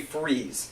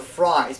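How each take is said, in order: First: The name is said like the word freeze. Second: The name is said like the word fries. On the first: The speaker calls it right. "it's actually Freeze" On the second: The speaker calls it wrong. "some of you might pronounce it as Victor Fries"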